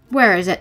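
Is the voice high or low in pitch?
low. It is said in a lower pitch.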